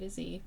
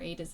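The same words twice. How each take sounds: First: The last letter is said the American way, 'zee'. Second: The last letter is said the British way, 'zed'. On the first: "I'm American, so I'm going to say" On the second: "that's the British pronunciation"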